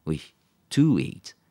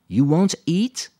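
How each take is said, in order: First: "to" drawn out and leaned on, slowly; slow self-correction with the weight on "to"; stressing the to. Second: Said in the usual way. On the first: Acted. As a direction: correct yourself by hitting "to" in "to eat". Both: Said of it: "Il fallait l'infinitif après le premier verbe".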